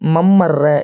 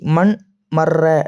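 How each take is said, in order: First: The n sound merges into a doubled m. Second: The n sound is kept before the m. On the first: The speaker calls it right. "என்று வாசிக்க வேண்டும்" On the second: The speaker calls it wrong. "என்று வாசிக்க கூடாது"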